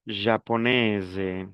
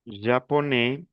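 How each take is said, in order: First: "Japonaise" slowly, ending in a voiced z; model pronunciation. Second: "Japonais" ending on an open è; model pronunciation. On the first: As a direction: sound the s of "Japonaise" as z. ("Japonaise" lento, pronunciando la s) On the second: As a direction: leave the s off "Japonais". ("Japonais" sin la s final) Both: Shown as a demonstration.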